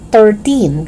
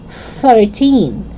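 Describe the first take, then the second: First: It begins without a voiceless th sound. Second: It begins with a voiceless th sound. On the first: The speaker calls it wrong. "It's not thirteen" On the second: The speaker calls it right. "It's thirteen"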